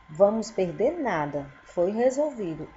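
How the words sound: There is a pause right after nada. Nothing will be lost and it was solved.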